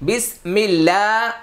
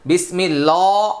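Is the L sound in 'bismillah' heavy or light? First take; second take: light; heavy. First: The L in bismillah is light and thin. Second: The L in bismillah is heavy and dark. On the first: The speaker calls it right. "সহিহ" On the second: The speaker calls it wrong. "ভুল"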